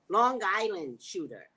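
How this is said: It is said in a New York accent. The speaker calls it right.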